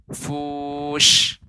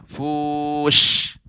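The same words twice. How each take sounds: The two takes are said the same way.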